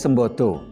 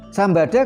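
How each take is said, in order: First: The vowels are pronounced as rounded 'o' sounds. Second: The vowels are pronounced as open 'a' sounds. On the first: It means able. The speaker calls it wrong. "menjadi Sembodo" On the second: It means fire. The speaker calls it right. "Sambada kalau dibaca O"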